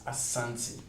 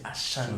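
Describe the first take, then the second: First: The middle consonant is an 's' sound. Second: The middle consonant is an 'sh' sound. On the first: This is the original local form. The speaker calls it right. "but it's Asante" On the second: This is the form outsiders introduced. The speaker calls it wrong. "they added the H. That's why normally people say Ashanti"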